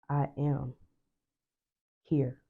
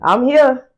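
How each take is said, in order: First: It is said dramatically, like a stage actor. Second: It is said in a playful, comic way.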